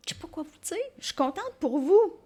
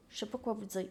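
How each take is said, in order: First: Gushing delight. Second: Said in the usual way. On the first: Real, not acted. Repeated line, gushing second take.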